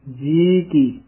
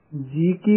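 First: ਜੀ ਕੀ as two distinct words; words kept separate. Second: ਜੀ ਕੀ joined as one word; no gap between the words of ਜੀ ਕੀ; run together. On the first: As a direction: set ਜੀ apart from ਕੀ. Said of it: "ਇਹ ਵੱਖਰਾ ਪਾਠ ਕਰਨਾ ਹੈ". (ਜੀ ਕੀ ਵੱਖਰਾ ਕਰ ਕੇ ਬੋਲੋ) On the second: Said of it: "ਇਕੱਠਾ ਨਹੀਂ ਕਹਿ ਦੇਣਾ". (ਜੀ ਕੀ ਇਕੱਠਾ ਬੋਲੋ) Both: Shown as a demonstration.

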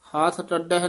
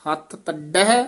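First: ਤੱਡਹਿ loose, ending closed as "taddeh"; wrong ਤੱਡਹਿ. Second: ਹੱਥ ਤੱਡਹਿ tight, ending open as "taddai-hai"; tightly pronounced ਤੱਡਹਿ. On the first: Teacher showing the mistake to avoid, ਤੱਡਹਿ as "taddeh". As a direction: say ਤੱਡਹਿ as "taddeh", without the open final syllable. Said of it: "ਨਹੀਂ ਬੋਲਣਾ". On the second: Teacher modelling correct words, tight ਤੱਡਹਿ as "taddai-hai". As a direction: press the double consonant in ਤੱਡਹਿ, rising at the end. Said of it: "ਕੱਸ ਕੇ ਬੋਲਨੇ ਆ". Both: Shown as a demonstration.

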